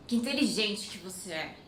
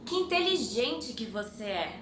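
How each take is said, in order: First: Que inteligente que você é said dry and mocking, meaning you're dumb; sarcastic intonation. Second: Said in the usual way. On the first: Shown as a demonstration. Teacher showing how the compliment turns into an insult, sarcastic. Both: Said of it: "with a different intonation".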